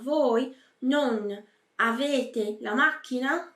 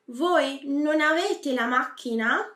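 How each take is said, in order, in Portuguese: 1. 'Non' e 'avete' são ditos como palavras separadas. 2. 'Non' e 'avete' se juntam como uma só palavra. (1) "você não vai falar" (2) "eles se unem praticamente se tornando uma palavra só"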